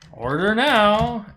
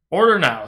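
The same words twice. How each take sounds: First: It is said in a sarcastic tone. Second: It is said in a sincere tone.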